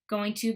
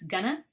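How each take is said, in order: First: Both words are said fully and separately. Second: The words blend into one reduced word.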